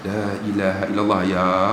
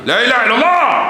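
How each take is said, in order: First: It is said softly and slowly. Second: It is said abruptly and harshly.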